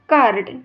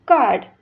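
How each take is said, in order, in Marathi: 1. तो मराठी पद्धतीने उच्चारला आहे. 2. तो इंग्रजी पद्धतीने उच्चारला आहे. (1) "मराठी प्रनाऊन्सिएशन" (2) "इंग्लिश प्रनाऊन्सिएशन"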